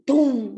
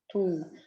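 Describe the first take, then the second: First: The sound is higher and sharper. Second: The sound is shorter and drier. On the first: It is the first heart sound, the systole. "um som mais agudo" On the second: It is the second heart sound, the diastole. "um tom mais sequinho"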